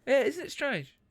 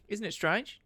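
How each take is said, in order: First: High-pitched try at an Aussie lilt; "strange" falling off in a mock Australian accent; Australian attempt. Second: "strange" lifted at the end like a question; rising ending. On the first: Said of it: "I'm just gonna go up at the end". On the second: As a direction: go up on "strange", mock-Aussie style. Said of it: "go up at the end". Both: Shown as a demonstration.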